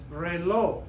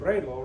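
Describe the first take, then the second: First: The stress is on the last syllable. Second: The stress is on the first syllable. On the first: The speaker calls it right. "The stress is on the O where it's supposed to be" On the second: The speaker calls it wrong. "We don't say"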